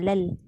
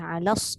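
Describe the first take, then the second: First: The lam is pronounced, giving an L sound. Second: The lam is assimilated, giving an S sound. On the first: The speaker calls it wrong. "jangan alal. Hilang lam" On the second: The speaker calls it right. "Alas, jangan alal"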